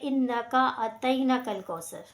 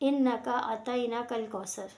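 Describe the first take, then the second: No difference in how they are said.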